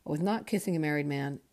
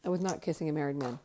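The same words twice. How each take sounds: First: Not pressed firmly, rest even; stress on not. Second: Fast, cheerful rattle-off of the same line; quick happy repeat. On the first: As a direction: lean on the word not, relieved. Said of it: "Okay, so there you go". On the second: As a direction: rush it out gleefully, relieved. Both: Real, not acted.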